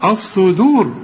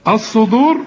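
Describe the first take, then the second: First: الصدور with thin dal after heavy s; light d. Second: الصدور with d thickened toward Dad; wrong heavy d. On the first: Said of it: "دال". (ترقيق دال الصدور) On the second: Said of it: "بتقول له الصدور ليه". (تفخيم خاطئ لدال الصدور) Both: Shown as a demonstration.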